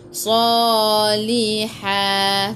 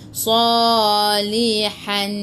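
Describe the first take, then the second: First: The word ends with a long vowel and h. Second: The word ends with an n sound. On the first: The speaker calls it right. "Baca dua harakat bila waqaf. Salihah. Bila berhenti" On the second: The speaker calls it wrong. "Jangan pula baca salihan"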